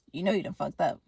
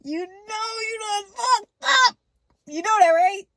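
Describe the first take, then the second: First: Low, soft retold threat; quiet menace. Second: Shouted accusation. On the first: Killer to the artist at the opened door, quietly menacing. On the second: Retold or imitated. Killer to the artist at the opened door, high shouted accusation. Same line repeated as a shout.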